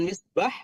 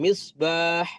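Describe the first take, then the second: First: The vowel in the last syllable is short. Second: The vowel in the last syllable is drawn out. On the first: The speaker calls it wrong. "bukan misbah" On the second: The speaker calls it right. "tapi di ayun misbah"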